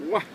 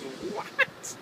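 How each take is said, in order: First: Said in the usual way. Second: High, rising startled question; imitating her shocked reply; mock startled girl. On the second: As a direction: play the baffled girl, pitched up. Girl's startled reply, second time.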